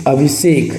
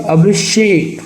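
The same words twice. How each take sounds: First: अभिषेक said as "abhisek"; wrong "s" sound. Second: अभिषेक said higher, as "abhishek"; correct "sh" sound. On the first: Teacher shows the mistake, अभिषेक with s. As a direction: use a plain s in अभिषेक. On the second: Teacher corrects the word, अभिषेक with sh. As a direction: lean on the sh in अभिषेक. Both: Shown as a demonstration. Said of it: "अभिषेक नहीं होगा".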